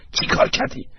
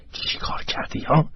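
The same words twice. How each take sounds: First: Urgent worried whisper; anxious. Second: Anxious whispered question. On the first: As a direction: whisper anxiously, pressing for an answer. (نجوای نگران و مضطرب) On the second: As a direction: whisper it worriedly to your son. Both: A narrator's reading. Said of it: "با اضطراب از ایگنشس پرسید".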